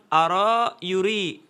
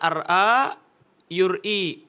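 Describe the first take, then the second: First: No glottal stop is heard before the r. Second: A glottal stop is heard before the r. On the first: This is how Arabs actually say it. "tapi bilang ara yuri" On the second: This is the original underlying form. "Bukan ara yuri"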